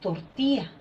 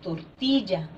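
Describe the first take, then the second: First: The middle ll sound is dropped or weakened. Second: The middle ll sound is fully pronounced. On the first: This is how locals commonly say it. "la falta de pronunciación de... nosotros decimos tortilla" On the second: This is the form locals do not use. "no decimos tortilla"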